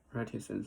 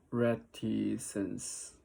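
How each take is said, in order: First: Said in the usual way. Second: Reticence drawn out slowly syllable by syllable; slow practice. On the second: Shown as a demonstration. Learner slowly sounding out a new word.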